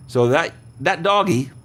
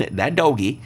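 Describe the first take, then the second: First: Said in the usual way. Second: Laughing. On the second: Real, not acted. Host amused by the word doggy, laughing. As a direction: chuckle through the word doggy.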